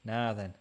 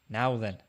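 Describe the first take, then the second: First: "Nah then" with a long open ah; Yorkshire pronunciation. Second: "Now then" with the full ow vowel; standard pronunciation. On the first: Testing the warned-about greeting, "Nah then" with Yorkshire ah. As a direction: say "Nah then", flattening now into nah. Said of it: "nah then" on YouTube in a Yorkshire accent". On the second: Puzzled over the warning, trying "Now then" with a rounded ow. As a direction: say "Now then" with now rhyming with cow. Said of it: "What's wrong with "nah then"?". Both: Shown as a demonstration.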